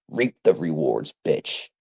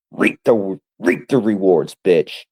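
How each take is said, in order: First: Said in the usual way. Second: Louder taunting repeat. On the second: Acted.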